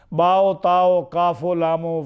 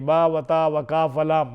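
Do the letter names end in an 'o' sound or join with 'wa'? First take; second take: o endings; wa joined. First: Each letter name ends with an added 'o' sound. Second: The letter names are joined by plain 'wa' sounds. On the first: The speaker calls it right. "शेर में बाओ ताओ वाओ को ऐसे करके पढ़ते हैं" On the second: The speaker calls it wrong. "ये ऐसा नहीं पढ़ेंगे"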